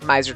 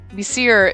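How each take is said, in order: First: The name is pronounced Miser. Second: The name is pronounced Messir. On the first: The speaker calls it wrong. "Miser just comes naturally, but that's so not even right either" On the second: The speaker calls it right. "Messir is so hard to say, and I think that's how they say"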